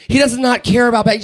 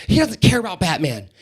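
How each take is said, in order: First: DOES NOT hit harder and higher, in mock exasperation; insistent mom. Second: Said in the usual way. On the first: Mom prepping her boy to order, insistent stress on "does not". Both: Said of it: "I could hear the mom prepping him".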